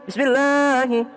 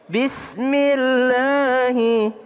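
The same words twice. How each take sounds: First: It is said quickly, with the first part swallowed. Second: It is said slowly, with every part clearly heard. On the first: The speaker calls it wrong. "dicepetin begini nih" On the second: The speaker calls it right. "Padahal pelan-pelan aja"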